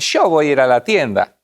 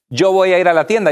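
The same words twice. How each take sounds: First: The 'y' in 'yo' sounds like English 'sh'. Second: The 'y' in 'yo' sounds like English 'y'. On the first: This is how Argentine speakers say it. "dicen yo voy a ir a la tienda" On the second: This is how non-Argentine speakers say it. "no dicen"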